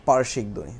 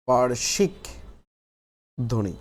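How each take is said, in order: First: Said in the usual way. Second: পার্শ্বিক held up, long pause, ধ্বনি falling; slow dictation. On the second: Shown as a demonstration. Teacher dictating the third heading to the class, slow and broken up.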